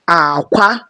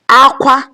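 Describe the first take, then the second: First: The first syllable is low, the second high. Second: Both syllables are on a high tone. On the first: It means egg. "low, high" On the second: It means cry. "cry, high, high"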